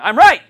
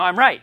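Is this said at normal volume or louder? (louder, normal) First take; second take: louder; normal. First: It is said more loudly and forcefully. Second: It is said at a normal volume.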